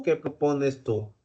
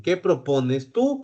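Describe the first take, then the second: First: "qué" hit first, falling, softer overall; soft, weight on "qué"; stress on qué, softer. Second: "tú" lifted with a rising end; "¿Qué propones tú?" with the weight on "tú"; stress on tú. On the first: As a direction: quieter "¿Qué propones tú?" leaning on "qué". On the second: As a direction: land on "tú", rising. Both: Shown as a demonstration.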